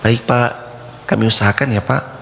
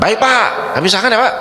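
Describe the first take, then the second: First: It is said gently and humbly. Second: It is said harshly and disrespectfully.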